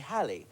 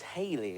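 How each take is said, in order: First: The first vowel is a short 'a' sound. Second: The first vowel is a long 'ay' sound. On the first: "but most people say Halley" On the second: "I'd always thought it was Haley, as in [name]"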